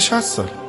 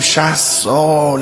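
First: It is said quickly and briefly. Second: It is said slowly and drawn out. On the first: Sixty years seems like a short time. "اما اونی که رسیده به 60 سال نمیگه 60 سال، میگه" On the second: Sixty years seems like a very long time. "چون به نظرمون خیلی زیاد میاد"

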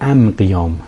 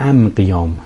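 First: The article is pronounced with an m sound. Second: The article is pronounced with an m sound.

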